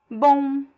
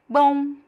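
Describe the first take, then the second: Both takes have the same delivery.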